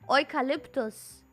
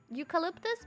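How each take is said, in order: First: The word is pronounced the German way. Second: The word is pronounced the English way. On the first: "in German we say eucalyptus" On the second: "then I thought it would be like eu- eucalypt, eucalyptus maybe"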